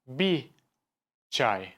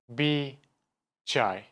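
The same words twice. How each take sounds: First: The r of bir is dropped. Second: The r of bir is dropped.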